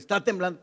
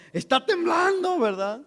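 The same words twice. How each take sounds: First: Said in the usual way. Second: Much higher, gleeful "Está temblando"; like a kid delighted by the quake; excitedly announcing the tremor; thrilled. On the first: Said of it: "pero yo así como". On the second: Retold or imitated. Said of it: "¿Pero por qué se emociona tanto?".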